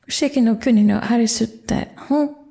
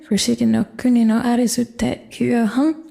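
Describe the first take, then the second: First: Only the short form 'te' comes before 'hon'. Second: The reduced form 'te iu' comes before 'hon'. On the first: "reduced right down to just te" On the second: "the to in to you can be reduced simply to te"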